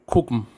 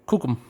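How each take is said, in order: Both takes have the same delivery.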